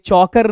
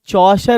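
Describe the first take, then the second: First: The middle consonant is a 'k' sound. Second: The middle consonant is a 'sh' sound. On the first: The speaker calls it wrong. "ये ये चौकर नहीं पढ़ दोगे" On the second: The speaker calls it right. "ये चौशर होगा बेटा"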